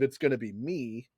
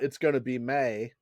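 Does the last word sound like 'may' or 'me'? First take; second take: me; may. First: The last word ends with an 'ee' vowel. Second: The last word ends with an 'ay' vowel. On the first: "instead of it's going to be me" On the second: "[name] says that the song came out. It's going to be May"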